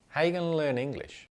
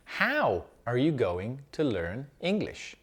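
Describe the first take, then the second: First: It is said fast and reduced. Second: It is said slowly and fully.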